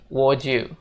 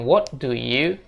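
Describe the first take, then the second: First: The words are blended into one reduced chunk. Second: Each word is said fully and separately. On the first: The speaker calls it right. "tapi would you" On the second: The speaker calls it wrong. "Jadi bukan what do you"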